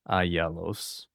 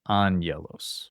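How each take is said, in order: First: The gamma is said without an N sound. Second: The first gamma is said as an N sound. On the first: The speaker calls it wrong. "instead of ayelos" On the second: The speaker calls it right. "the first one sounds like a nu, which is like the N sound"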